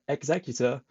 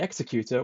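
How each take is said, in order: First: It sounds like the word executive. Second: It does not sound like the word executive. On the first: The speaker calls it right. "it's actually called the Executor" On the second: The speaker calls it wrong. "me calling Vader's Star Destroyer the Executor"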